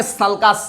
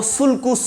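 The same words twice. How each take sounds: First: Sulcus with an "a" sound in both syllables, "salkas"; sulcus as "SAL-kus". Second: Sulcus with a rounded "u" in both syllables; sulcus as "sool-koos". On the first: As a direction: say sulcus as "sal-kas", open vowels. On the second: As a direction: say sulcus as spelt, "sulkus" with oo vowels. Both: Shown as a demonstration. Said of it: "कैसे pronounce करोगे".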